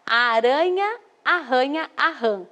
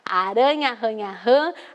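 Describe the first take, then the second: First: The phrase is read slowly and calmly. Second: The phrase is read quickly. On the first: "Eu li com bastante calma" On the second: "Se fosse para realizar a leitura rápido"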